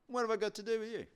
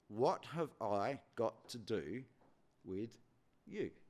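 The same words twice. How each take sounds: First: It sounds dismissive, brushing the matter off. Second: It sounds like a sincere, genuine question.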